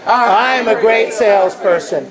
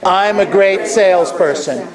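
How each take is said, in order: First: It is said with medium energy. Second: It is said with low energy.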